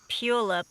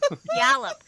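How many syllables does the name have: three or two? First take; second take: two; three. First: The name is said with two syllables. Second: The name is said with three syllables. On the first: The speaker calls it wrong. "Oh, I said it wrong" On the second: The speaker calls it right. "That's what it is"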